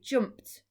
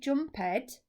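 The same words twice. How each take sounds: First: The ending is said as a short 't' sound. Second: The ending is said as a separate 'ed' syllable. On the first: The speaker calls it right. "it sounds like a t" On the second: The speaker calls it wrong. "we don't say jumped"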